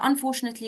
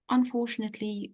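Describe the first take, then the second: First: The tone sounds casual and unsympathetic. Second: The tone sounds gentle and sympathetic. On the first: The speaker does not seem to care about the bad news. The speaker calls it wrong. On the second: The speaker shares the listener's sorrow. The speaker calls it right.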